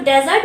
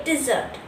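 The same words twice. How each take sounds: First: Dessert misread as DEZ-ert; pronunciation to avoid. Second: Dessert as di-ZERT, stress on the second syllable; correct pronunciation. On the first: Teacher shows how not to read it, DEZ-ert for dessert. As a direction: say dessert with stress up front on "dez". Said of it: "So dessert नहीं पढ़ना". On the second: Teacher shows how to read it, di-ZERT for dessert. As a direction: say dessert with a light "di", long "zert". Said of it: "इसे हम पढ़ेंगे dessert". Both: Shown as a demonstration.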